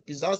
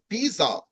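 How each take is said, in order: First: It is said with an English pronunciation. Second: It is said with a French pronunciation. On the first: "the English people uh, uh, describe that as" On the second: "normally the French pronounce it differently. They say"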